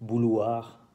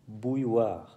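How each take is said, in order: First: The middle has no 'y' glide sound. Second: The middle has a 'y' glide sound. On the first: The speaker calls it wrong. "No se dice bouloir" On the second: The speaker calls it right. "Otra vez el sonido yod"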